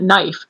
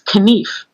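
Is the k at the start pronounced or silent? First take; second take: silent; pronounced. First: The word begins with an n sound. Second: The word begins with a k sound. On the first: This is the later pronunciation. "It wasn't knife" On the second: This is the older pronunciation. "you said every letter in a word"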